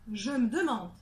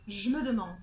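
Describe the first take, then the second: First: The vowel of me is dropped. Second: The vowel of je is dropped. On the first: "c'est le E du me qui n'est pas du tout prononcé" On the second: "le E du je n'est pas prononcé"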